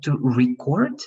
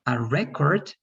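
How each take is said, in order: First: To reCORD, with the weight on CORD; stress on second syllable. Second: RECord, with the weight on REC; stress on first syllable. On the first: Teacher explaining the action to students, "record" stressed on CORD. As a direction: verb "record" stressed at the end, slowly. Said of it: "is to do the action". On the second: Teacher explaining the object to students, "record" stressed on REC. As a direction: noun "record" stressed at the front. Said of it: "is one object". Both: Shown as a demonstration.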